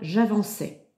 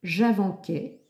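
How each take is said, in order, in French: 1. La consonne avant la terminaison est un S doux. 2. La consonne avant la terminaison est un K dur. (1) "j'obtiens bien « j'avançais »" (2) "j'obtiens le son « K »"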